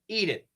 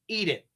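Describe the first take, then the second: First: The T is a quick flap like D. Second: The T is a quick flap like D.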